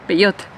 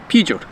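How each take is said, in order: First: PEUGEOT as "peh-YOT"; Spanish pronunciation. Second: PEUGEOT as "PYOO-zhoh"; English pronunciation. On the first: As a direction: say Peugeot the Spanish way, ending in a hard t. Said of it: "how they say it in Spanish". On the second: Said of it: "I'm gonna say it in English". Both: Shown as a demonstration.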